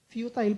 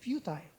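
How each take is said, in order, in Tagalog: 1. Hindi tumutugma ang huling pantig sa 'tiles'. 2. Tumutugma ang huling pantig sa 'tiles'. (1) "futile pala" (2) "Ang basa ko sa futile ay futile. Kasi tiles"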